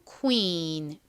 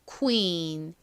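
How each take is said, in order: No difference in how they are said.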